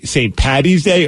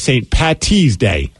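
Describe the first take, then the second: First: The middle consonant sounds like a D. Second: The middle consonant sounds like a T.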